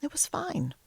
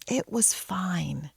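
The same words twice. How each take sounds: First: Said in the usual way. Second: Slow whispered repeat; soft whisper. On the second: Shown as a demonstration. Telling viewers it was fine, slow relieved whisper. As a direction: breathe it out as relief settles in.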